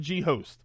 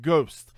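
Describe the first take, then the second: First: It is said as two parts, G and host. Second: It is said as one syllable, ghost. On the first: The speaker calls it wrong. "I'm going to say gamer G host" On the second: The speaker calls it right. "assume you pronounce that ghost"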